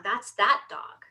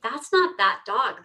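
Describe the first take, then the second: First: First "that" lightly stressed, rising end. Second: "not" lightly stressed in retold correction. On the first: Retold or imitated. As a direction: point with a light lift on "that". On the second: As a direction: lean a little on "not". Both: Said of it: "the owner looks at me and says".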